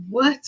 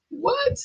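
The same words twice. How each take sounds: First: Incredulous what. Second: A much higher squeaked What?, pitch shooting up; stunned what. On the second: Recalling her family's reaction, an incredulous What?. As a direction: ask What? as if it makes no sense at all. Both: Retold or imitated. Disbelief at being told fine.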